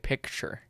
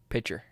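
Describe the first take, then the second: First: The k sound before the t is pronounced. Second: The k sound before the t is dropped. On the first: This is how people outside Oklahoma say it. "Some people say picture" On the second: This is how the speaker personally says it. "So you don't pronounce the letter in that word?"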